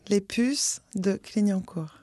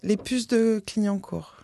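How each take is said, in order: First: It is said slowly and deliberately. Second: It is said at normal conversational speed.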